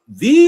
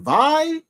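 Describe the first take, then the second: First: The vowel sounds like 'ee', as in see. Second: The vowel sounds like 'eye', as in die. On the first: The speaker calls it wrong. "do you pronounce it V" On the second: The speaker calls it right. "kind of like die"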